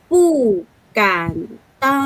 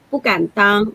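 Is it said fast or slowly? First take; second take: slowly; fast. First: It is said slowly. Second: It is said fast.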